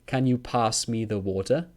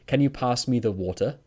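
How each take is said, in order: The two takes are said the same way.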